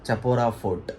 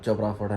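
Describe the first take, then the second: First: The name is said with three syllables, Cha-po-ra. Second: The name is said with two syllables, Cho-pra. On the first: The speaker calls it right. "ఆ fort pronunciation అయితే చపోరా fort అనమాట" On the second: The speaker calls it wrong. "నేను చోప్రా fort చోప్రా fort చోప్రా fort అని పిలిచిన"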